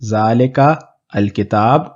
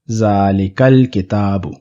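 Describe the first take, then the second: First: A break separates zalika from the article. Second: Zalika runs straight into the article without break. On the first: The speaker calls it wrong. "Rather than" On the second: The speaker calls it right. "we have"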